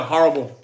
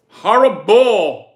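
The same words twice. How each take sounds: First: Said in the usual way. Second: HORRIBLE stretched slow and loud; drawn-out emphasis. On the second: Real, not acted. Streamer reacting to a dinner answer, drawn-out emphasis on HORRIBLE. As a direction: lean hard on both ends of HORRIBLE, dragging it out. Repeats the word with heavy emphasis.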